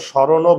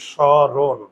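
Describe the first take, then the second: First: স্মরণও ending in an extra o sound; final vowel added. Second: স্মরণ ending on a bare n, no vowel after; final consonant closed. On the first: Teacher showing students what we don't say, স্মরণও with final o. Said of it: "আমরা তো স্মরণও বলি না". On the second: Teacher showing students what we say, স্মরণ with silent final vowel. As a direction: stop স্মরণ firmly on the n. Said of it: "আমরা কি বলি?". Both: Shown as a demonstration.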